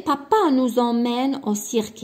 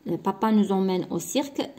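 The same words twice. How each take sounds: First: بابا نو زومين او سيرك read louder, stressing بابا; marked reading. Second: Said in the usual way. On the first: Shown as a demonstration. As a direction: read it out for the class, leaning on بابا. (قراءة مبرزة لبابا) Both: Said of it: "سي اون فراز ديكلاراتيف".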